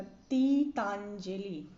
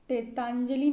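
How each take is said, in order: First: तीतांजलि slowly, with long TEE; correct TEE opening. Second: तेतांजलि starting with TE, louder; wrong TE opening. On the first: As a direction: stretch तीतांजलि as "tee-taan-jali". (तीतांजलि में लंबा "ती", धीरे) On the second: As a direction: say तेतांजलि as "te-taanjali". (तेतांजलि की शुरुआत "ते" से) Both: Shown as a demonstration. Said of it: "नहीं होता".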